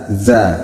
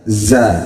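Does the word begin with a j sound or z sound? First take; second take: z sound; z sound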